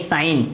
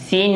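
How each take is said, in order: First: The vowel is an 'eye' diphthong. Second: The vowel is a long 'ee' sound. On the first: The speaker calls it right. "ये साइन है" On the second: The speaker calls it wrong. "सीन बोल देते हैं, सीन नहीं"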